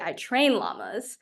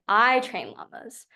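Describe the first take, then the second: First: The stress is on "train". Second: The stress is on "I".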